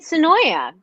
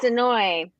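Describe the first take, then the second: First: The name ends with a final 'ya' syllable. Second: The name ends on an 'oy' sound. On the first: The speaker calls it wrong. "calling it Sonoya" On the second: The speaker calls it right. "And it's Sonoy"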